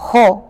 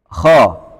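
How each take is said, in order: First: The vowel is a rounded o sound. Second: The vowel is an open a sound. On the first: The speaker calls it wrong. "bukan kho" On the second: The speaker calls it right. "kita sebut dengan kha"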